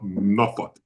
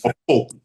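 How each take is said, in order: First: The name is said with a reduced second syllable. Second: The name is said fully, just as spelled. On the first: The speaker calls it right. "you pronounce it right. It is called Norfolk" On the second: The speaker calls it wrong. "it's spelled that way, but it's not pronounced that way"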